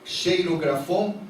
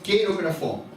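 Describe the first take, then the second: First: The word begins with a soft sh sound. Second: The word begins with a hard k sound. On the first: The speaker calls it wrong. "é esta palavra, cheirografon" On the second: The speaker calls it right. "a pronúncia correta é queirografon"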